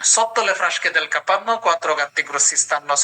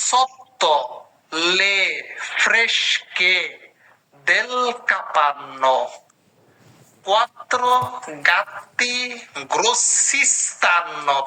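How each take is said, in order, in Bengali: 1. এটা দ্রুত পড়া হচ্ছে, এক নিঃশ্বাসে। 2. এটা ধীরে পড়া হচ্ছে, একবারে একটি শব্দ। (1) "দম আটকায় পড়বেন" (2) "আমি একটা শব্দ শব্দ করে ধরাই দিচ্ছি"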